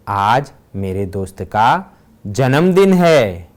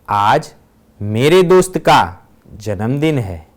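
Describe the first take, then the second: First: The stress is on जन्मदिन. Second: The stress is on मेरे दोस्त का.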